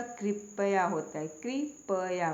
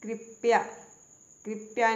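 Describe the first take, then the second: First: कृपया in three syllables, "kri-pa-ya"; correct full "pa". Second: कृपया said as two syllables, "krip-ya"; wrong swallowed vowel. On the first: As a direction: sound the whole pa in कृपया. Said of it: "पूरा प आएगा". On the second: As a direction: drop the a after p in कृपया. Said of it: "कृपया नहीं होता". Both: Shown as a demonstration.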